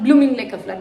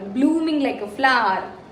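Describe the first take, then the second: First: The vowel in blooming is short. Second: The vowel in blooming is stretched long. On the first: The speaker calls it wrong. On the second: The speaker calls it right.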